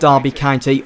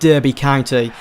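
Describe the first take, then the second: First: It is said in a British accent. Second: It is said in an American accent.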